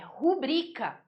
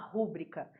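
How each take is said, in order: First: The stress is on the second syllable. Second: The stress is on the first syllable. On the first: The speaker calls it right. "é rubrica, bri, bri, bri" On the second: The speaker calls it wrong. "não faça uma rúbrica"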